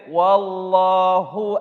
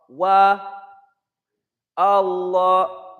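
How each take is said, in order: First: Said in one breath, the two words joined. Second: A breath pause falls after wa. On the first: "So if you keep on going, you skip it" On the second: "Take a breath after the wow. Now you pronounce it"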